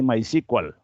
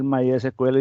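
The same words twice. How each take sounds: First: The name is said in a shortened English-style form. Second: The name is said in its full, unshortened form. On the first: This is the form the tool's users commonly say. "abreviación de la pronunciación en inglés" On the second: This is the form the presenter normally uses. "en lugar de decir MySQL"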